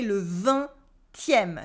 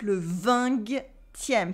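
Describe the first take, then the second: First: Le vingtième with no G sound; silent G. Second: Le vingtième said wrongly with a hard G, slowly; wrong G sound. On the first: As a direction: say vingtième without the G. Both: Shown as a demonstration. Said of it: "le G is silent".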